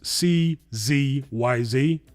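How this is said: Z is said the American way, as zee.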